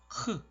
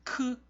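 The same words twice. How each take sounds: First: The k sound carries breathy, throaty air. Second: The k sound is crisp and clean. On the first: This is the Thai way of saying it. "태국은 크, 크, 크 이런 식으로 소리를 내요" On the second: This is the Korean way of saying it. "우리나라는 좀 신선하게 크, 크 이런 식으로 발음을 한다"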